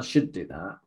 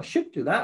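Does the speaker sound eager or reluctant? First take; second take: reluctant; eager. First: It is said in a reluctant, dreary tone. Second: It is said in an eager, upbeat tone. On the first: The speaker feels obliged to do it. "because it's not probably something you really want to do" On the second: The speaker wants to do it. "you never say it with, oh, you know, I should do that. I'm really looking forward to it"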